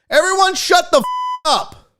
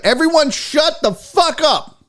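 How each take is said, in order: First: High mock shout with the swear bleeped; bleeped order. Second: High, drawn-out mock shout; exasperated order. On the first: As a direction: repeat the order, bleep over the curse. Repeats it with a bleep. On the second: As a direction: yell for silence, hitting each word. Calling the chat to order.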